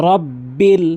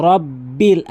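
The two takes are said the same way.

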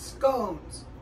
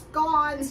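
First: The word is said the American way. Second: The word is said the non-American way. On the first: The speaker calls it wrong. "I've been pronouncing it wrong. You know, I'm from America" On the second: The speaker calls it right. "It's scones"

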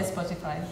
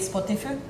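First: It is pronounced with English-like sounds. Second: It is pronounced with Finnish spelling-based sounds. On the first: This is how people actually say the word. "we all say Spotify" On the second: This is how the word would sound as a Finnish word. "if we pronounce it in Finnish way"

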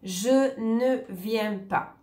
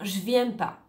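First: The word 'ne' is pronounced. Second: The word 'ne' is left out. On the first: "si je dis « je ne viens pas »" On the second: "on va plutôt dire « je viens pas »"

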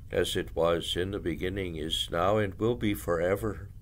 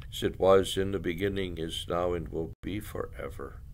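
No difference in how they are said.

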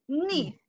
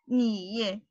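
First: The pitch falls sharply from high to low. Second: The pitch dips low then rises. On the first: "And the fourth one?" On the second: "And the third tone?"

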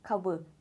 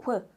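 First: The word is said slowly, parts apart. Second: The word is said quickly, parts joined.

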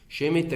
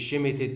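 First: No final d sound is pronounced. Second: A final d sound is pronounced. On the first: The speaker calls it right. "الاي والدي دي اس شباب سايلنت ما بتنطقش" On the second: The speaker calls it wrong. "مش شيمتد"

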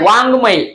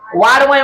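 First: The middle consonant is a nasal 'ng' sound. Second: The middle consonant is a plain 'd' sound. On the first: The speaker calls it right. "उच्चार हा ड च्या पुढे अनुस्वार दिल्यामुळे ग होतो" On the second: The speaker calls it wrong. "वाडमय म्हणायचं नाही याला"

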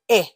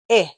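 First: The vowel is a quick, short 'eh' sound. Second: The same.

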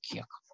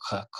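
First: The k sound is soft, palatalized. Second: The k sound is hard, not palatalized. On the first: The speaker calls it right. "но это «кек»" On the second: The speaker calls it wrong. "Если бы не было палатализации и был бы твердый звук, писалась бы буква «э». ... Было бы «кек»"

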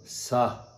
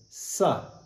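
First: The syllable is said with a low tone. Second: The syllable is said with a high tone. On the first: "This is low tone" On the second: "This is high tone"

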